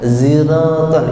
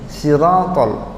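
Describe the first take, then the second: First: It begins with a plain z sound. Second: It begins with a plain s sound. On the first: "ada yang pakai langsung za" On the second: "ada yang pakai sin"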